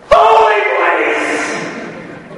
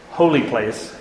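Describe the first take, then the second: First: "Holy place!" cried out much higher and louder, drawn out slowly; exclaimed shout. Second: Said in the usual way. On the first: Shown as a demonstration. Teacher shows the Hebrew exclamation point with a long, high, loud cry. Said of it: "This is like, exclamation point". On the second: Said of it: "this place is called the".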